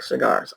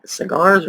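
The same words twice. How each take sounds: First: "cigars" reduced to "suh-GARS"; second pronunciation. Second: "cigars" with a full short i, "sih-GARS"; first pronunciation. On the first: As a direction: say "cigars" with a swallowed first vowel. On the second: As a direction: say "cigars" with a clear first vowel. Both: Shown as a demonstration. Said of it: "is that like cigars or like cigars".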